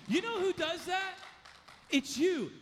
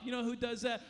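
First: Higher, louder challenge on who; loud preaching emphasis. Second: Said in the usual way. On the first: Shown as a demonstration. Preacher challenges the congregation, higher and louder. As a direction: drive the question home to the room. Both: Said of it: "Let me tell you something".

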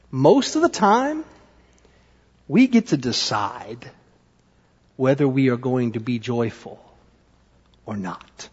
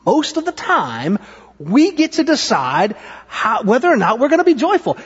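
First: Low, soft, spaced-out lesson. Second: Animated, emphatic. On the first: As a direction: let each phrase land gently with pauses. First take of the lesson. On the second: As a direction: drive the lesson home with energy. Livelier repeat of the lesson. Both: Real, not acted.

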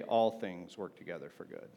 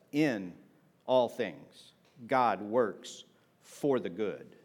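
First: Plain reading of "All things work together for good", no stress on "All"; misquote read plainly. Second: "In" set apart by a pause, then "all things" stressed, "God works for the good" slow. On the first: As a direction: state the misquote quietly and flatly, with "All things" unstressed. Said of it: "So it doesn't say". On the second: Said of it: "It says". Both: Shown as a demonstration.

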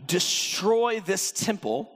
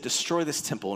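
First: Slow, weighty, DESTROY leaned on; slow commanding declaration. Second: Said in the usual way. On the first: Acted. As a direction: proclaim it like a command. First take of the words.

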